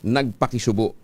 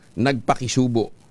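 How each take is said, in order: First: The stress falls on the last syllable. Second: The stress falls on the second-to-last syllable. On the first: It means to commiserate. "Dapat mabilis yung basa niya" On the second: It is a word with a different meaning. "kasi iba naman yung nagpakisubo"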